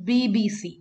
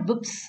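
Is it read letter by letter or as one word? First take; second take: letter by letter; one word. First: It is read letter by letter. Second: It is read as one single word. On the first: The speaker calls it right. "it's BBC, ... we will pronounce it letter by letter" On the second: The speaker calls it wrong. "It's not BBC"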